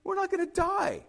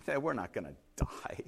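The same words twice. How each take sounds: First: Very high, light reassurance; mock dismissal. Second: Low, soft, laid-back reply; easygoing and hushed, pitched well down; unbothered castaway. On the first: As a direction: wave away the panic in a high-pitched voice. Castaway dismisses his friend's panic. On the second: Retold or imitated. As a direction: brush off the panic quietly. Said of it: "his arms are folded".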